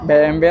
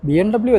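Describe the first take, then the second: First: The last letter is said as 'vay'. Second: The last letter is said as 'double-u'. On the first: The speaker calls it right. "ഇവിടെ വരുമ്പോൾ നമ്മൾ pronounce ചെയ്യേണ്ടത്" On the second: The speaker calls it wrong. "B M ഡബ്ല്യു അല്ല"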